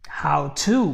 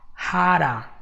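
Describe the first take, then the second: First: Both words are said fully with a clear T. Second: It is fast, flapped, with 'how' shortened to 'ha'. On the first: "you're gonna say how, how to" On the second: "Instead of how, you go with ha"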